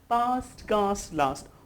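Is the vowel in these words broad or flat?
broad. The words use a long, broad British a vowel. The speaker calls it right. "if you say past, cast, last, would really sound good"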